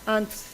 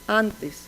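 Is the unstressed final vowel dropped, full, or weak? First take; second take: weak; full. First: The final unstressed vowel is very weakened. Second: The final unstressed vowel is fully pronounced. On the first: "o muy debilitada" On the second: "con la vocal átona plenamente conservada"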